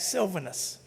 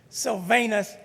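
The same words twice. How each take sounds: First: One syllable of the name is reduced. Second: Every syllable of the name is pronounced fully. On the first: This is how the name is actually said. The speaker calls it right. "in fact" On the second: This is how the name looks when read. The speaker calls it wrong. "are inclined to go with every syllable in the name"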